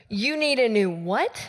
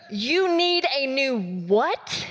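First: Said in the usual way. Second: Drawn out, each word slow. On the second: Retold or imitated. Pastor asking friend to repeat, slowly. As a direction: ask it again very slowly. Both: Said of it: "say it slower for me".

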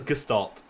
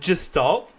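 First: Gestalt said with a hard G, as in "get". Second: Gestalt said with a soft G, like "jest". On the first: Co-host giving the version he expected, gestalt with hard G. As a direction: start gestalt with a hard G sound. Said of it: "I thought it was gestalt". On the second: Co-host checking how a word is pronounced, gestalt with soft G. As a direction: start gestalt with a J sound. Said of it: "is that pronounced gestalt". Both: Shown as a demonstration.

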